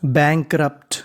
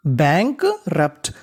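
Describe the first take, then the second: First: Said in the usual way. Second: Very slowly sound out bankrupt; slow demo reading. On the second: Shown as a demonstration. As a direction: stretch bankrupt syllable by syllable. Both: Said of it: "तो इतनी meaning बनी".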